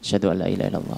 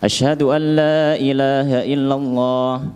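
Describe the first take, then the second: First: The phrase is said softly and quietly. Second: The phrase is said loudly and clearly. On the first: "syahadatnya dibaca lirih dulu" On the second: "kemudian dibaca lagi secara keras"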